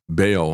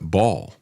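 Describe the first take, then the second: First: The name does not sound like 'ball'. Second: The name sounds like the word 'ball'. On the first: This is the pronunciation the speaker heard growing up. "I always heard it pronounced that way growing up" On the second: This is how many other people pronounce it. "a lot of people pronounce it Baal"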